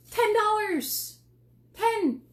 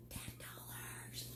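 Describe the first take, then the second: First: High, loud and slow, stretching out Ten; excited. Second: Slow whispered "Ten dollars" like a secret. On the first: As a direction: announce the price like a big reveal. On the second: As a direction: breathe the price out in a whisper. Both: Real, not acted. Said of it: "I got excited there for a second".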